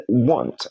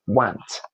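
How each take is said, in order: First: "want" with an open o sound, "wont"; correct pronunciation. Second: "want" with a flat a, like "wahnt"; mispronunciation. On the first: Teacher modelling the word for learners, correct pronunciation. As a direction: say "want" with the letter O's short sound. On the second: Teacher showing learners what to avoid, mispronunciation. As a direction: put an a sound in "want". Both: Shown as a demonstration.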